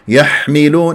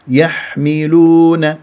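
First: The ḥā is pushed out with a harsh rush of air. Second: The ḥā is soft with gentle, light airflow. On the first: The speaker calls it wrong. "حتى أطلع شحطة" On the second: The speaker calls it right. "لا يحملون"

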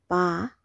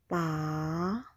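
First: The pitch falls from high to low. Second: The pitch falls and then rises. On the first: "The third tone is a falling tone" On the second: "The second tone is the falling rising tone"

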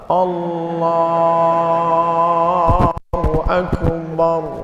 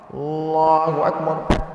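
First: The phrase is drawn out long. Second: The phrase is said short and quick.

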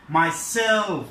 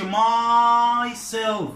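First: The stress falls on the second syllable. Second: The stress falls on the first syllable. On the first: The speaker calls it right. "We put the stress on the last syllable" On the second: The speaker calls it wrong. "We don't make the stress on the my. We don't say myself"

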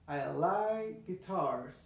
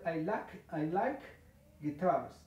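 First: The k of like merges into the g. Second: The k of like is clearly pronounced. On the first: The speaker calls it right. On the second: The speaker calls it wrong. "Es que ya no tienes que pronunciar"

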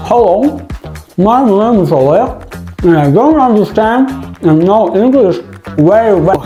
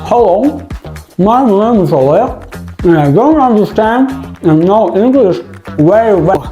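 First: The words are mumbled while chewing food. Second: The same.

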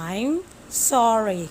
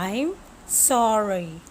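Both takes have the same delivery.

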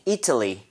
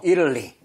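First: The t is a clear t sound. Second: The t is a quick flap like l.

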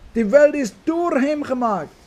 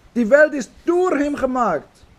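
No difference in how they are said.

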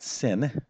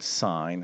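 First: The vowel is short, rhyming with 'pin'. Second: The vowel is long, rhyming with 'pine'. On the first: The speaker calls it wrong. "we pronounce this not sin" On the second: The speaker calls it right. "This is called sine"

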